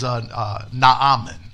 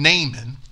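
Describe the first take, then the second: First: The name has a Hebrew-like pronunciation. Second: The name has a common anglicized pronunciation. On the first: The speaker calls it right. "the probably proper or closer pronunciation of his name, you know, from Hebrew" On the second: The speaker calls it wrong. "We've commonly probably referred to him and called him Naaman"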